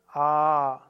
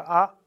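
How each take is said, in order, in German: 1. Der Vokal wird etwa doppelt so lang gehalten. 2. Der Vokal wird kurz gehalten. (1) "das lange A ist doppelt so lang wie das kurze A" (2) "Erst kurz"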